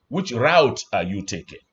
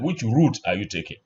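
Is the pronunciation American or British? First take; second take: American; British. First: The phrase is said with an American pronunciation. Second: The phrase is said with a British pronunciation. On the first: "In American, you say" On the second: "but the British"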